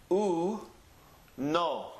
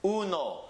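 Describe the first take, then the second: First: "u, no." in two separate sounds, a pause between. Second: Said in the usual way. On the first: Shown as a demonstration. Teacher reading Spanish by its letter sounds, "u, no." sounded out. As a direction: sound out "u, no." one piece at a time. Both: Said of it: "read it with the sounds".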